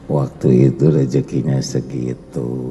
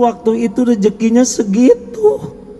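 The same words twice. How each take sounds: First: The voice is low and lowered in pitch. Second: The voice is at a normal, higher pitch.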